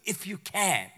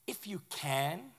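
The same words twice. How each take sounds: First: Echoing if you can back with disbelief; can dropped flat as a quoted doubt; a light mock repeat of if you can. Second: Slow, quiet, weighing the words; a hushed, searching if you can; Jesus, softly. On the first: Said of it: "What do you mean". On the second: Retold or imitated. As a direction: let it hang as a soft question. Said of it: "And Jesus looks at him and says".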